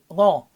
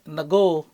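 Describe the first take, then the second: First: The N and G blend with no vowel between. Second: A vowel separates the N from the G. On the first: The speaker calls it right. "the right pronunciation of his name is Ngo" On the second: The speaker calls it wrong. "Some people pronounce it Nago"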